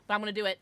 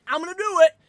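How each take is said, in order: First: Said in the usual way. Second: Loud, high, defiant declaration; defiant shout. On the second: Shown as a demonstration. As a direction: shout it out, refusing to hold back. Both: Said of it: "can I bitch for a second".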